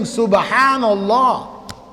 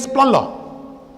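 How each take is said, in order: First: Every syllable of the phrase is said clearly. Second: The phrase is squashed into fewer syllables. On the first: The speaker calls it right. "instead of saying" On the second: The speaker calls it wrong. "you're saying"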